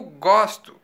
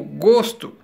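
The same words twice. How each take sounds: First: The stressed o is an open vowel. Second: The stressed o is a closed vowel. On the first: It is the verb 'I like'. "eu estou pronunciando com a vogal O aberta" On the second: It is the noun 'taste'. "eu pronuncio com a vogal O fechada"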